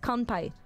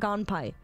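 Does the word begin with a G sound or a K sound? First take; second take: K; G. First: The word begins with a K sound. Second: The word begins with a G sound. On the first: The speaker calls it right. "It's a K" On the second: The speaker calls it wrong. "Americans say that as with a G sound"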